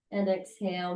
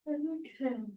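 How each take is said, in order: First: Said in the usual way. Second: Real yawn breaking through the instruction. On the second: Real, not acted. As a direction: exhale cue yawned out, pitch higher. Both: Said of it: "sorry about my yawning".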